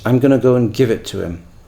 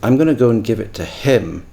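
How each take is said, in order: First: The word him is not stressed. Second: The word him is stressed. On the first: It is the neutral, standard way of saying it. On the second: It is a marked, non-standard way of saying it.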